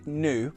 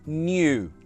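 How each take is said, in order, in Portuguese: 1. Não há som de y antes da vogal. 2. Há um som de y antes da vogal. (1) "If I said nu or in the news, which I sometimes do, my mum will be very angry with me" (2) "With that ny sound"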